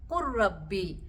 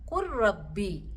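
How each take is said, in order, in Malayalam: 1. L പൂർണ്ണമായും ഇരട്ടിച്ച R-ൽ ലയിക്കുന്നു. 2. L പൂർണ്ണമായും ഇരട്ടിച്ച R-ൽ ലയിക്കുന്നു.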